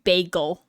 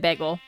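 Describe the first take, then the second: First: The word has a standard, expected pronunciation. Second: The word has a regional Californian pronunciation. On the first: The speaker calls it right. "I know it's supposed to be bagel" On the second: The speaker calls it wrong. "I say bagel weird; how we pronounce it in California"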